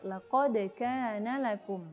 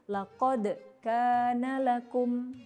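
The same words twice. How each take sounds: First: The words run on with no break. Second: There is a break right after laqad. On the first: The speaker calls it right. "tidak dengan ada jeda" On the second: The speaker calls it wrong. "seperti memutus seakan-akan di situ ada saktah"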